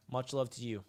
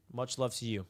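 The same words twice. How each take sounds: The two takes are said the same way.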